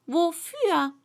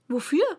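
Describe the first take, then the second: First: WOFÜR higher, falling at the end; emphatic correction. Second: WOFÜR with a rising, questioning end. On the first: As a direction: restate "wofür" firmly, high then dropping. Alice repeats it to correct him. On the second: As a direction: ask "Wofür" lightly, pitch rising at the end. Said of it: "fragte diese". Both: A narrator's reading.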